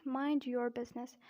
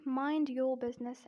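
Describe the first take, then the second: First: American "your" with a sounded R; American accent. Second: British "your" with no R; non-rhotic British example; British accent. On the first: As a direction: demonstrate the phrase in an American accent. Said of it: "and in American accent". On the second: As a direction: demonstrate the phrase in a British accent. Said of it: "In British accent". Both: Shown as a demonstration.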